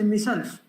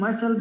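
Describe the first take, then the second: First: It is said in a Birmingham accent. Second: It is said in a standard English accent. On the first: "they say myself" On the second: "Instead of speaking myself"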